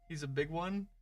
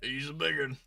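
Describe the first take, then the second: First: Both words are said clearly and separately. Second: The words run together into one reduced word.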